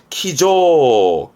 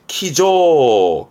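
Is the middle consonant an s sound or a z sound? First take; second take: z sound; z sound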